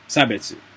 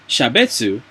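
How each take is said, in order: First: The word begins with an s sound. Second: The word begins with an sh sound. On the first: The speaker calls it right. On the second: The speaker calls it wrong.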